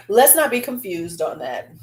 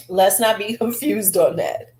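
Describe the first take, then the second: First: Said in the usual way. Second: Breaking into a laugh mid-line. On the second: Real, not acted. Vlogger laughing at the cheeky lipstick name. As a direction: let the laugh slip through the words.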